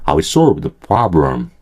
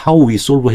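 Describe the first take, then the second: First: "how" weakened to "ha" and linked to "we", lower; reduced form. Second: "How we solve" with the whole diphthong in "How", higher; careful, higher "How we solve"; full form. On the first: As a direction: shorten "how" to "ha" in "how we solve". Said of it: "how라고 정확하게 안 하셔도 돼요". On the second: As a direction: pronounce "How" completely, both vowels. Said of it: "해도 되지만". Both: Shown as a demonstration.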